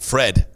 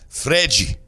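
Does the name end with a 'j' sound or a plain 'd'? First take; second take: plain d; j sound. First: The name ends with a plain d sound. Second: The name ends with a 'jee' sound.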